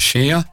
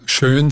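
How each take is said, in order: First: The vowel is unrounded ä followed by r. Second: The vowel is a rounded standard ö. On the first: "sagt mir im Ostallgäu schär" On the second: "Statt schön"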